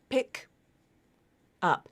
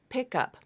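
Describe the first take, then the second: First: A short gap separates the two words. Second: The two words run together like one word. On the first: The speaker calls it wrong. "It's not pick up, pick up. There's no space between those words" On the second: The speaker calls it right. "when this phrase is linked, it sounds closer to pick up"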